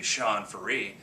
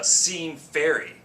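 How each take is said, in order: First: "Sean Faree" said the right way, stress on "Faree"; correct name. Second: "Sean Ferry" drawn out slowly, higher and louder like an announcer; mispronounced name. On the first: Shown as a demonstration. Telling the audience how his name goes, plainly. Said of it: "It should be Sean Faree". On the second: Retold or imitated. Retelling the announcer's botched introduction, slow and grand. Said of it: "he didn't know how to pronounce my name".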